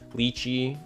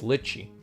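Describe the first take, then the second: First: The first syllable does not sound like 'Lich'. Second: The first syllable sounds like 'Lich'. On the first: The speaker calls it wrong. "everyone ... has always called him like Lychee" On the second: The speaker calls it right. "Lich as in Lich King, so it's Litchi"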